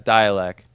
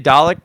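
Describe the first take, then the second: First: The name sounds like the word dialect. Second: The name sounds like the TV robot Dalek. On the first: The speaker calls it right. "I think that's the way you say it" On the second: The speaker calls it wrong. "I try not to say Dalek"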